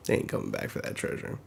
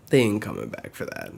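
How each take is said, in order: First: Hushed whisper. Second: Said in the usual way. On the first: Real, not acted. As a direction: whisper it like a secret aside.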